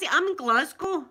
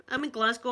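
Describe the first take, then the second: First: Higher and louder, proud shout of her city; proud excited declaration. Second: Said in the usual way. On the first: Real, not acted. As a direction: announce it proudly and loudly.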